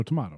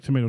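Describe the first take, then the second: First: "tomato" with broad ah, tuh-MAH-toe; tomahto. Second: "tomato" with long a, tuh-MAY-toe. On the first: Contrasting two ways to say tomato, broad ah. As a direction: say "tomato" the British way. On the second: Contrasting two ways to say tomato, long a. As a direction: say "tomato" the American way. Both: Shown as a demonstration. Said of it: "Oh, like tomato".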